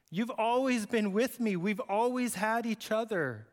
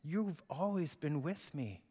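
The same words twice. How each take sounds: First: Higher, earnest appeal; father urging the older son to understand; pleading father. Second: Soft and slow reassurance; father comforting his angry older son; tender father. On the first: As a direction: beg him to see it. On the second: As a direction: hold him close with the words. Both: Acted.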